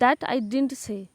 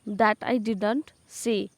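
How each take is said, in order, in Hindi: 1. 'Didn't' एक syllable में छोटा किया जाता है, 'din't'। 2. 'Didn't' पूरा बोला जाता है, दोनों सिलेबल के साथ।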